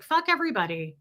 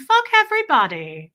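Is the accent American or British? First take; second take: American; British. First: It is said in an American accent. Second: It is said in a posh British accent. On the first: It comes off rude and unhelpful. The speaker calls it wrong. "American accents don't pull that off the same" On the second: It sounds inspiring and uplifting. The speaker calls it right. "she was like, darling"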